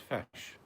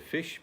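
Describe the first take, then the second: First: It is said with a vowel like short a. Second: It is said with a plain short i vowel.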